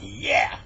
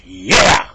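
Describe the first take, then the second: First: Short, loud, breath-heavy cheer; triumphant cheer. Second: Very loud victory shout, rising; huge triumphant yell. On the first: Henry thinks he got his bear, triumphant cheer. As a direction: let out a quick victory cry. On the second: Henry sure the shotgun got the bear, exultant yell. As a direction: roar it out in celebration. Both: Acted.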